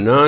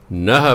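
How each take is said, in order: First: ਨਾ as an open syllable, no h; wrong pronunciation. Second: ਨਾਹ with an audible final h; correct pronunciation. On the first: Teacher warning against a misreading, ਨਾ without h. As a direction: leave ਨਾ without a final h. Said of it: "ਇਹਨੂੰ ਨਾ ਨਹੀਂ ਪੜ੍ਹਨਾ". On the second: Teacher showing the word for husband, ਨਾਹ with final h. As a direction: close ਨਾਹ on a sounded h. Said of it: "ਨਾਹ ਪੜ੍ਹਨਾ". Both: Shown as a demonstration.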